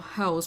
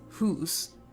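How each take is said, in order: First: The vowel is the usual 'ow' sound. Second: The vowel is a Scottish 'oo' sound.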